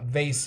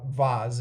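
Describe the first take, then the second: First: The word is said with an American pronunciation. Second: The word is said with a British pronunciation. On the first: "in American English" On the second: "in British English"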